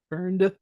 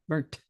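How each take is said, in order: First: The word is said slowly with a clear ending. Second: The word is said quickly, ending in a t.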